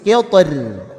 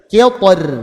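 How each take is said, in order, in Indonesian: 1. Bunyi r di akhir diucapkan ringan dan tipis. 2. Bunyi r di akhir diucapkan ringan dan tipis.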